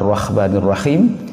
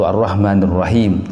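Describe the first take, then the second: First: The h sound is a rough kha. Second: The h sound is a plain ha. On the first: "tertukar pada huruf kha atau huruf ha" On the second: "tertukar pada huruf kha atau huruf ha"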